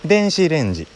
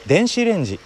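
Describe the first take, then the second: First: Kansai accent. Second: Standard Japanese accent. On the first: Repeating 電子レンジ for listeners as Kansai people say it, in Kansai intonation. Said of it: "関西弁は上から下がってくる". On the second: Showing what 電子レンジ becomes for a Kansai speaker attempting standard Japanese, in standard intonation. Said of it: "標準語で喋ろうと思うと". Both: Shown as a demonstration.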